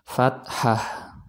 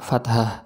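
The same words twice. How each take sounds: First: The word is said with the Arabic h sound. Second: The word is said with a non-Arabic h sound. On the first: The speaker calls it right. "sesuai dengan lafal Arabnya" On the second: The speaker calls it wrong. "itu bukan, kurang tepat"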